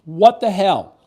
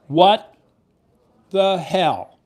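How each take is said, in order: First: Loud high What the hell; exasperated outburst. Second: What and the hell split apart, each hit loud and high; emphatic repeat. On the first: Host venting at the viewers, loud outrage. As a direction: throw it out in outrage. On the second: Host repeating for emphasis, word by word. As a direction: punch each word separately. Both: Real, not acted. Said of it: "let me do it again for emphasis".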